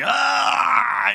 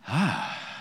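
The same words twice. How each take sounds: First: It sounds like a painful groan. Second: It sounds like a hopeful, anticipating sigh.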